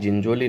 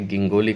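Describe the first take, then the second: First: The name starts with a soft J sound. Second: The name starts with a hard G sound. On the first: The speaker calls it wrong. "ये जिंजोली नहीं है" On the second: The speaker calls it right. "ये ऊपर लिखा गिंगोली है"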